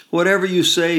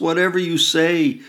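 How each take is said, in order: First: High, loud wail. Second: High, loud wail, falling at the end; wailing again. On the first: Mother wailing at her daughter, high and loud. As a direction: wail it out in despair. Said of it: "she wails". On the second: Mother wailing again at her daughter, high and loud. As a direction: wail it once more, wearing down. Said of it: "she wails again". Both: A narrator's reading.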